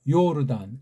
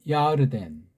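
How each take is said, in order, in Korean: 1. 첫 음절은 'yor'로 발음해요. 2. 첫 음절은 'yar'로 발음해요. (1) "여긴 야르가 아니고 요르잖아요" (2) "그렇게 발음한다고 했죠?"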